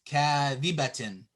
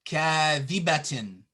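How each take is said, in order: No difference in how they are said.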